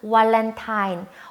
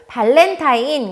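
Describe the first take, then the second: First: The word begins with a W sound. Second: The word begins with a B sound.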